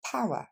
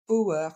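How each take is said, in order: First: Power coupé après le son ow, pa-wa; bonne prononciation. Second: Power coupé après le o, en pouer; mauvaise prononciation. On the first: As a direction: couper après le son de now. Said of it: "mais bien". (power bien prononcé) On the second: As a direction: imiter la faute, coupé après le o. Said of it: "Ce n'est pas power". (power mal prononcé) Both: Shown as a demonstration.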